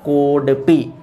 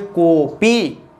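First: A d sound is heard before the final syllable. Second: No d sound is heard before the final syllable. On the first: The speaker calls it wrong. "कोड पी गलत है बोलने में" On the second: The speaker calls it right. "इसको शुद्ध में पढ़ेंगे कॉपी"

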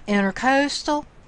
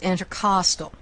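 First: The second syllable sounds like 'coast'. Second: The second syllable sounds like 'cost'. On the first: The speaker calls it wrong. "This is not intercostal" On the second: The speaker calls it right. "it's intercostal, pertaining to between the ribs"

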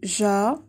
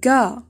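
First: The syllable starts with a soft j sound. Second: The syllable starts with a hard g sound. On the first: The speaker calls it wrong. "لا تنطق جا" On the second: The speaker calls it right. "بل ga"

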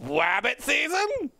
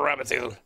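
First: It is said in a put-on cartoon voice, r as w. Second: It is said in a plain, natural voice. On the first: "Should I say it like that? Wabbit?" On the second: "I'm going for rabbit season"

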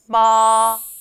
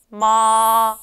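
First: The pitch stays high and level, held long. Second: The same.

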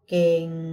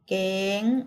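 First: The word is said on a low tone. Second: The word is said on a high tone. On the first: "เสียงเอก" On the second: "เสียงตรี"

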